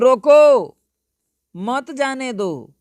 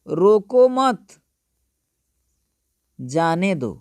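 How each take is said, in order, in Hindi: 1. 'roko' के बाद विराम है। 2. 'mat' के बाद विराम है। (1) "मतलब रोकने के लिए मैं कह रहा हूं" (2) "रोको मत, यहां पर विराम ले लिया"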